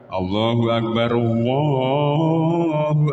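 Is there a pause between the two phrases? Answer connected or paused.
connected. The phrases run together without any pause. "ada yang dilangsungkan"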